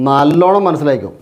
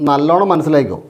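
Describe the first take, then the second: Both takes have the same delivery.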